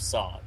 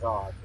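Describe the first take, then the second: First: The word begins with a hissing s sound. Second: The word begins with a buzzing z sound. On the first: The speaker calls it wrong. "instead of Sod" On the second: The speaker calls it right. "pronounced Zod"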